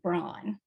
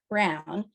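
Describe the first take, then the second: First: It is said unlike the color brown. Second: It is said like the color brown. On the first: The speaker calls it wrong. "because of the American pronunciation of that last name" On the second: The speaker calls it right. "how we pronounce the name, the color, brown"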